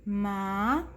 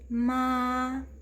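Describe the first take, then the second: First: The pitch rises from start to end. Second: The pitch stays flat and even throughout. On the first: "ele é um tom subindo" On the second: "nossa voz bem baixinha e retilínea, realmente sem alterações"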